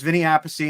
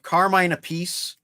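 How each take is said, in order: First: Appice said AP-uh-see, stressed on the first syllable. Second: Appice said uh-PEESE, stressed on the second syllable. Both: Shown as a demonstration. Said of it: "the two brothers each pronounce their name differently".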